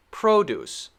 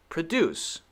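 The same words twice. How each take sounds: First: PRO-duce, full first syllable; stress on first syllable. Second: Pro-DUCE, weak first syllable; stress on second syllable. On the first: Teacher recaps the noun, first-syllable stress on PRO-duce. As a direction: lean on the PRO in "Produce". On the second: Teacher recaps the verb, second-syllable stress on pro-DUCE. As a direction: lean on the DUCE in "Produce". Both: Shown as a demonstration. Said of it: "but the stress is different".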